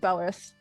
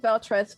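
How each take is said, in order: First: No T sound is heard after the L. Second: A T sound is heard after the L. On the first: This is how the name's owner says it. "I pronounce it as like it's like Belrith" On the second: This is how the name is written. "it does say Beltreth"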